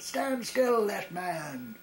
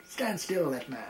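First: Much higher, louder parade-ground bellow on stand still; louder shout. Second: Officer snapping an order at a twitching soldier, louder on stand still; sharp military command, stand still louder and higher; barked parade-ground order. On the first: Officer repeats his order to the twitching soldier, louder bellow. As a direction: bellow the order, angrier the second time. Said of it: "and in a louder voice he said". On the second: Officer on parade orders a twitching soldier, barked command. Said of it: "So he turned around and said". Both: Retold or imitated.

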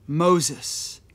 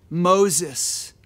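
No difference in how they are said.

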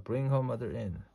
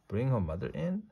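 First: "Bring her mother in" as a statement; plain instruction. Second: "Bring her mother in" higher, rising at the end; puzzled echo question. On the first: Doctor instructing Amelia Bedelia, "Bring her mother in" as a firm statement. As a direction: give "Bring her mother in" as an order, pitch not lifted at the end. Doctor's order, then echoed as question. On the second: Amelia Bedelia querying the doctor, "Bring her mother in" as a rising question. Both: A narrator's reading.

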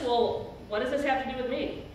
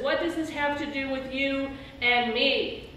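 First: Quick offhand shrug of a line, Jesus pushing her away; fast, dismissive "what does this have to do with me"; dismissive brush-off. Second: Open, inviting question, not a brush-off; Jesus drawing his mother in, weighting "you and me"; stress on you and me. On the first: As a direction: toss it off fast as if it's none of his business. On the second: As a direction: lean on "you and me" to include her as an equal. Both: Shown as a demonstration. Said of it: "Not just".

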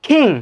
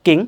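First: 'King' with a puff of air after k; aspirated k. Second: 'king' with no puff after k; unaspirated k. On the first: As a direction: breathe out on the k of 'King'. ('King' মহাপ্রাণ খ দিয়ে) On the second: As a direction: hold back the air on 'king'. ('king' অল্পপ্রাণ ক দিয়ে) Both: Shown as a demonstration. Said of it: "not king".

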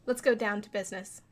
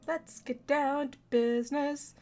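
First: Said in the usual way. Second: Slow, deliberate, higher, with stress on down; corrected line. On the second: Real, not acted. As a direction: say Let's get down to business slowly, hitting down.

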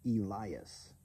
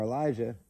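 First: Elias said slowly as ee-LIE-us; careful ee-LIE-us for Elias; corrected pronunciation. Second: Elijah said as ih-LY-zhuh; mispronounced. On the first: Shown as a demonstration. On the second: Real, not acted. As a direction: read Elijah as e-LIE-jah. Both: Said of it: "supposed to be pronounced Elias".

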